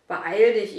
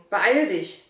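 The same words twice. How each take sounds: First: Loud, pressing hurry-up; urgent call. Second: Loud, insistent hurry; urging. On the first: Father hurrying his late son, loud and urgent. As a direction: push the boy to move, now. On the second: Father urging his son to get going, loud. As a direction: press him hard to hurry up. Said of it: "drängte der Vater". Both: Acted.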